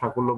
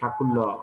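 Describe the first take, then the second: First: It is said with a native Bengali pronunciation. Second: It is said with an anglicized British pronunciation. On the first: "বাংলায় উচ্চারণ করতে পারেন" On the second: "ওরা ওদের উচ্চারণগুলো একটু অন্যরকম"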